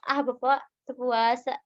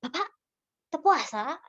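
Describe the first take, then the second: First: Light teasing remark, less raised in pitch; joking tease. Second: Higher, pointed question with a rising end; blunt questioning. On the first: Stall keeper joking with an older customer, light tease. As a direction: tease him gently, as a joke. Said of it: "kedua kayak bari diheureuyan gitu si bapaknya". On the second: Stall keeper questioning an older man about fasting, blunt rising challenge. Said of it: "jangan kayak". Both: Shown as a demonstration.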